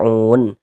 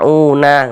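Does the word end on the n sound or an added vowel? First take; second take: n sound; added vowel. First: The word ends on a silent final n. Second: The word ends with an added vowel. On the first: The speaker calls it right. "kalau berwakaf di huruf nun kita baca un" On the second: The speaker calls it wrong. "Jangan dibaca una, baru berhenti gitu jangan ya, salah"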